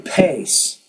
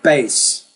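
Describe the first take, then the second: First: The P has a strong puff of air. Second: The P has little or no puff of air. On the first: The speaker calls it right. "I say pace. ... you have to put a lot more air" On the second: The speaker calls it wrong. "you're saying more like bass"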